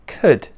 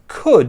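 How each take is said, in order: First: The vowel is weak and reduced. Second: The vowel is full and clearly pronounced. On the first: "It's a weaker, more neutral sound" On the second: "this could here"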